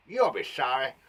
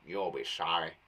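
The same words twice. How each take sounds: First: Snarled threat. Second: Low, growled threat in a rough voice; angry snarl. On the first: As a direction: spit it out as a warning. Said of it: "nice thing to snarl". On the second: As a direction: snarl it at someone who wronged her. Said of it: "said it angrily". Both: Acted.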